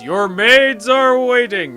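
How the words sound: It is said in an epic, grand voice.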